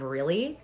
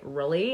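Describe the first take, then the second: First: The word is said without a U-like vowel sound. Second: The word is said with a U-like vowel sound.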